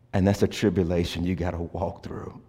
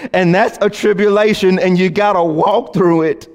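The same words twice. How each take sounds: First: Low and soft, almost hushed; soft refrain. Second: Higher and fuller, building intensity; rising refrain. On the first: Pastor murmuring the tribulation refrain to the congregation. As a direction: lay the refrain down gently. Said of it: "repeated refrain, quiet take". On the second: Pastor building the tribulation refrain toward a climax. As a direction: drive the refrain home with force. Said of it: "repeated refrain, built up". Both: Shown as a demonstration.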